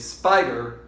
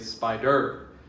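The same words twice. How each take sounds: First: The stress is on the first syllable. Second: The stress is on the second syllable. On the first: The speaker calls it right. "Spider also has to be stressed on the first syllable. We say spider" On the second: The speaker calls it wrong. "we don't say spider"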